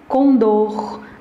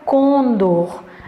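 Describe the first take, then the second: First: The stress is on the last syllable. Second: The stress is on the first syllable. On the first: The speaker calls it right. "Essa palavra é oxítona. A pronúncia dela é condor" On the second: The speaker calls it wrong. "Não existe a pronúncia condor"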